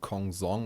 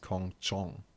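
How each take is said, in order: First: The last syllable begins with a 'z' sound. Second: The last syllable begins with a 'ch' sound. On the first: This is the English-style reading of the name. The speaker calls it wrong. "or however you're supposed to pronounce it in English" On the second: This is how the name is really pronounced. The speaker calls it right. "is actually pronounced Kong Chong"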